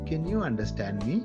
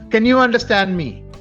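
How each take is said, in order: First: It is spoken in a slightly low voice. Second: It is spoken in a loud voice. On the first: "It's slightly low" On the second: "It's loud"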